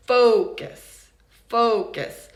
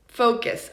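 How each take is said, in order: First: "Focus" with a loud, long FO; first-syllable stress. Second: Said in the usual way. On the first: Shown as a demonstration. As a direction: punch the first syllable of "Focus", let the second drop. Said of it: "the first syllable is stressed". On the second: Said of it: "let's look at the word focus".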